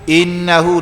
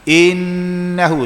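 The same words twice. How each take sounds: First: The nasal hum on the n is cut short. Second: The nasal hum on the n is held long. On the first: The speaker calls it wrong. "Kalau satu innahu innahu dengung dah bunyi tapi tak cukup dengung" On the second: The speaker calls it right. "Innahu satu dua"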